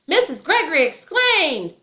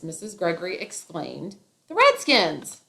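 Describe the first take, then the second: First: Whole sentence yelled, higher and louder; the wrong take, all of it yelled; yelling the whole line. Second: "Missus Gregory exclaimed" said evenly, then a lift on "the Redskins"; the right take, with only "the Redskins" yelled; only the team yelled. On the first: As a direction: shout every word, tag included. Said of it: "It's not". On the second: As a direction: keep "exclaimed" calm and push "Redskins". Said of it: "the part that is yelled". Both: Shown as a demonstration.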